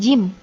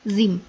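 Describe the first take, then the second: First: The word begins with a 'j' sound. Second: The word begins with a 'z' sound. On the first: The speaker calls it right. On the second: The speaker calls it wrong. "bukan zim"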